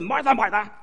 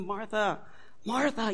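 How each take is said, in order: First: It is said in a harsh, scolding tone. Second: It is said in a mild, loving tone.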